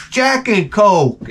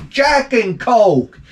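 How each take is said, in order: First: Jack and Coke said slow and high, each word savoured; savoured drink name. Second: Jack and Coke drawn out even slower, pitched up; savoured drink name. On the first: Vlogger selling his favourite drink, slow and savouring. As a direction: roll Jack and Coke off the tongue. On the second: Vlogger repeating his favourite drink, slower and savouring. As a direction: stretch Jack and Coke like a toast. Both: Shown as a demonstration. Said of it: "It rolls off the tongue".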